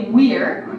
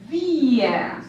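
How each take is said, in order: First: It starts with an English W sound. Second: It starts without an English W sound. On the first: The speaker calls it wrong. "We won't say we're" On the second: The speaker calls it right. "here it's not the English W"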